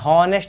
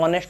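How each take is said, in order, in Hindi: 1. इस शब्द की शुरुआत में h की साफ़ आवाज़ सुनाई देती है। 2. यह शब्द स्वर से शुरू होता है, इसमें h नहीं है। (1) "हॉनेस्ट नहीं होता है" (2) "एच साइलेंट होता है, ऑनेस्ट होता है"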